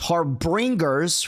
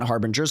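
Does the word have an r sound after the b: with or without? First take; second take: with; without. First: The word has an r sound after the b. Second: The word has no r sound after the b. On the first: The speaker calls it right. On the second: The speaker calls it wrong.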